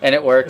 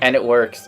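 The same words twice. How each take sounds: First: It is said with strong, lively feeling. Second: It is said flatly, with little feeling.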